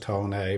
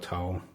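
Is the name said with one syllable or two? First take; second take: Two; One. First: The name is said with two syllables. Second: The name is said with one syllable. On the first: Some other people say it this way. "some guys pronounce it Tone A" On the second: The speaker says it this way. "but I just call it Tone"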